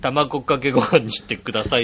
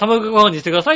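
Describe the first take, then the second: First: It is said choppily in a lower casual tone. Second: It is said smoothly in a radio-host tone.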